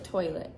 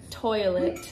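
First: The T sound is dropped. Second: The T sound is clearly pronounced. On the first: "I say like" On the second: "I don't say"

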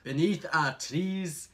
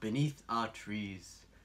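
First: It is read in a different put-on accent. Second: It is read in a documentary narrator's voice. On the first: "Why don't you try it with some other accent?" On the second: "I will read it in the voice of David Attenborough"

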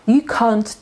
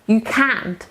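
First: The vowel is short and relaxed. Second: The vowel is open and tense. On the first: It sounds like an insult. The speaker calls it wrong. "ty pizdo" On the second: It means you are not able to. The speaker calls it right. "Nie możesz"

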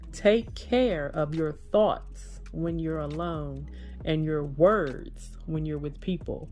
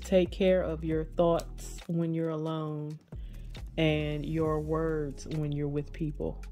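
First: It is said louder than before. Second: It is read aloud at a normal volume.

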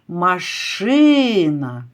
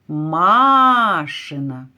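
First: The stress is on the second syllable. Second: The stress is on the first syllable. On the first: A car. "Який голосний тягнеться? Машина. Звук «и» буде головним" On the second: Belonging to Masha. "Чуєте, який голосний тягнеться? Машина. Звук «а»"

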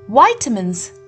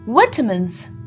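First: It is said with an American English pronunciation. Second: It is said with a British English pronunciation. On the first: "The second pronunciation is the American English pronunciation" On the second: "In the British English pronunciation, we refer to it as vitamins"

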